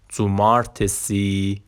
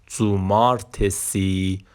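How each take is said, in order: Both takes have the same delivery.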